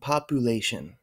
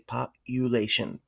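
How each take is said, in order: First: The U is said without a y sound. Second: The U is said like the word you. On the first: The speaker calls it wrong. "Don't fall into the trap of saying population" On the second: The speaker calls it right. "You want to say population"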